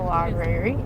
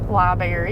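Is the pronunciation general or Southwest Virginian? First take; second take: general; Southwest Virginian. First: It is said in a general, non-regional pronunciation. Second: It is said with a Southwest Virginia pronunciation.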